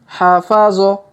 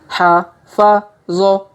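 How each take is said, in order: First: The syllables are run together quickly. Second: Each syllable is said slowly and separately. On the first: "Kalau dipercepat" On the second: "kita baca pelan-pelan"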